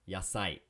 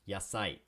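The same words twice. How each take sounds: The two takes are said the same way.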